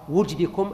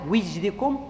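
First: The first vowel is u. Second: The first vowel is i. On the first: "بضم الواو" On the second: "أو كسرها"

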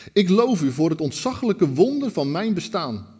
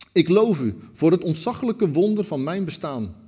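The two takes are said the same way.

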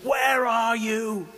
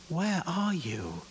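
First: It is bellowed in an angry, accusing tone. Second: It is said gently, in a sad, tearful tone.

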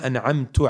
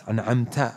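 First: The word ends with a 'u' vowel. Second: The word ends with an 'a' vowel. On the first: The one reciting did the bestowing. The speaker calls it wrong. "You change it like that" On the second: The one addressed did the bestowing. The speaker calls it right. "It's an'amta, right? With a fatha"

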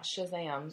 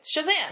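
First: It is said flatly, without excitement. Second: It is said loudly, with excitement.

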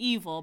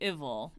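First: The name starts with a long e vowel. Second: The name starts with a short i vowel. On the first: "It could be evil, but that sounds like evil" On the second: "sounds like Tribble"

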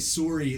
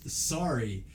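First: Sorry is said with a Canadian vowel. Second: Sorry is said with a standard American vowel. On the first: "like in the Canadian pronunciation" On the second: "nobody says sorry"

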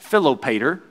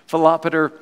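First: It is said with a Southern American twang. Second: It is said in a neutral, careful accent. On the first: It sounds rustic. The speaker calls it wrong. "that just sounds very country. It sounds like I'm in the South in America" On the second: It sounds scholarly. The speaker calls it right. "That sounds much more studious"

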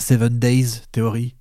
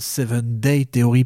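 First: Day is said with a final s sound. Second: Day is said without a final s sound. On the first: The speaker calls it wrong. "pas 7 Days Theory" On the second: The speaker calls it right. "Et 7 Day Theory"

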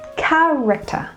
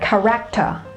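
First: The stress falls on the first syllable. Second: The stress falls on the second syllable. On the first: The speaker calls it right. "it is on the first syllable" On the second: The speaker calls it wrong. "the stress is not on the second syllable"

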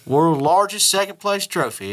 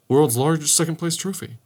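First: It is said with a strong Southern country accent. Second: It is said without a strong country accent. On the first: "Just country as hell sounding" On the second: "I don't say it like"

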